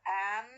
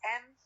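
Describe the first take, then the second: First: The vowel is full and clearly pronounced. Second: The vowel is reduced to a weak schwa. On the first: "I have the strong forms" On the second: "The weak forms of am is am"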